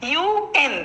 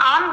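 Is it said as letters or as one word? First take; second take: letters; one word. First: Each letter is said separately. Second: It is said as one word. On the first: The speaker calls it right. "প্রত্যেকটি বর্ণকে আলাদা আলাদা করে বলছি" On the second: The speaker calls it wrong. "আমি ইউএন আন বলছি না"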